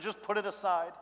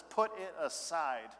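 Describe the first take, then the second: First: Said in the usual way. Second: "Put it aside." drawn out slowly, each word weighted; slow emphatic read. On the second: Shown as a demonstration. Pastor slowing down to weigh the verse. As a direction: let "Put it aside." land slowly and heavily. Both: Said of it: "It says".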